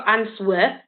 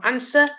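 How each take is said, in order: First: The W sound is pronounced in the word. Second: The W sound is not pronounced at all. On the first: The speaker calls it wrong. "We don't go answer" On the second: The speaker calls it right. "We go answer"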